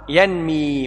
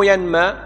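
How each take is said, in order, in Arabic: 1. الحركة بعد الميم كسرة. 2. الحركة بعد الميم فتحة. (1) "فعل يفعل بكسر العين" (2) "مو ينمى"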